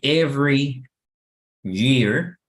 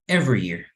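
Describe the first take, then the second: First: There is a gap between the two words. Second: The two words run together without a gap. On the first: The speaker calls it wrong. "En vez de every year" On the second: The speaker calls it right. "vas a decir every year"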